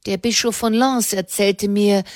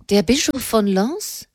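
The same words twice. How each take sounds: First: Said in the usual way. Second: Surprised echo question, Bischof leaned on, rising end; startled echo of Bischof von Lens; astonished. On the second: Acted. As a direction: repeat the name as if you can't believe it. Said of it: "rief Ennemond erstaunt".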